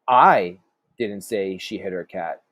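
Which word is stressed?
I. The stress falls on the word I. Someone else said it. "meaning maybe somebody else did"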